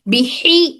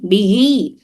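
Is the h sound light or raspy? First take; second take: raspy; light. First: The h is a tight, raspy throat sound. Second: The h is a light, breathy sound. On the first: The speaker calls it wrong. "इस तरह से करना गलत है। बिही नहीं" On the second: The speaker calls it right. "ये हलक के निचले हिस्से से"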